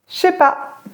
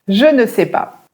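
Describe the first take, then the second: First: The 'ne' is dropped from the phrase. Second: Every word is said, including 'ne'. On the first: "Les Français disent je sais pas" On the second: "comment les Français disent ceci?"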